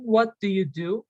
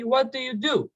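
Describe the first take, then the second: First: Said in the usual way. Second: "What do you do?" run together, falling at the end; natural quick version. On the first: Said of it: "instead of saying". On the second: Shown as a demonstration. Teacher showing learners the natural way, quick and linked. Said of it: "with a more quick way".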